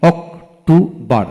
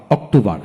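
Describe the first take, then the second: First: October in three slow beats, ok, tu, bar; split into syllables. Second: Said in the usual way. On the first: Shown as a demonstration. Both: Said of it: "তিনটি syllable থাকে".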